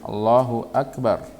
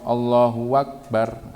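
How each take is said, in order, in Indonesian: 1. Kata kedua diawali dengan glottal stop. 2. Kata kedua diawali dengan bunyi w. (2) "mengganti uh, hamzahnya akbar dengan waw"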